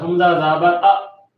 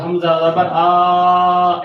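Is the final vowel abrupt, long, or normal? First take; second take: abrupt; long. First: The final vowel is cut off with a jerk. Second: The final vowel is drawn out long. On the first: "झटके से मुराद हमज़ा ज़बर अ ऐसे नहीं पढ़ना" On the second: "लंबा से मुराद हमज़ा ज़बर आ ऐसे नहीं पढ़ना"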